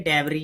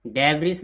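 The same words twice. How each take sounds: First: "debris" with a silent final s, like deb-ree; correct pronunciation. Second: "debris" with the final s sounded, like deb-rees; wrong pronunciation. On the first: Teacher showing learners how to read it, "debris" with silent s. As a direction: say "debris" ending on an ee vowel. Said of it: "एस silent है". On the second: Teacher showing learners the misreading, "debris" with an audible s. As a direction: voice the written s ending of "debris". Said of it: "debris नहीं पढ़ेंगे". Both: Shown as a demonstration.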